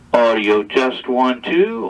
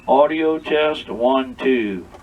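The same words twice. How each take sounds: First: It is sent with modulation at seven and a half. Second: It is sent with modulation turned down to five. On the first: "seven and a half on the modulation" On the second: "five on modulation"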